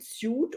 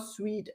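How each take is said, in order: First: The word rhymes with boot. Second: The word rhymes with feet. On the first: The speaker calls it wrong. "Is it suit or sweet?" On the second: The speaker calls it right. "Sweet, you're right"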